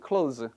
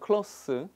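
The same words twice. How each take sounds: First: The word ends with a buzzing z sound. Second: The word ends with a hissing s sound. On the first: It is the verb meaning to shut. "이게 동사일 때는 close가 돼요" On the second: It is the adjective meaning near. "이거 형사로 쓰면 close예요"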